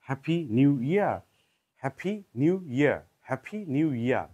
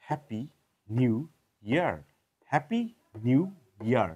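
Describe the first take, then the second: First: হ্যাপি নিউ ইয়ার with aspirated p, nyoo and no r; British-accent happy new year. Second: হ্যাপি নিউ ইয়ার in a muddled British-American mix; mixed accent happy new year. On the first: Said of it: "যদি আমরা ব্রিটিশদের মতো বলি". (British উচ্চারণে হ্যাপি নিউ ইয়ার) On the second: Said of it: "জগা খিচুড়ি বলি". (জগা খিচুড়ি উচ্চারণে হ্যাপি নিউ ইয়ার) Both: Shown as a demonstration.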